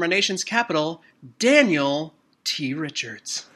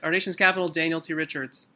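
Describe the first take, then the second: First: It is said with lively, enthusiastic energy. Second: It is said flatly, tired and half questioning. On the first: The speaker is glad to introduce the guest. The speaker calls it right. "you need to give us a more enthusiastic introduction" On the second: The speaker seems not to care about the guest. The speaker calls it wrong. "is there a question? Do you care that I'm here? Are you annoyed? Are you tired?"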